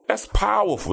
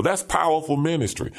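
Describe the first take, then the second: First: Pitched way up with fervor; emphatic exclamation. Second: Said in the usual way. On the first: Real, not acted. Preacher marveling at police ministry, emphatic lift. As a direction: preach it, really lift the word powerful.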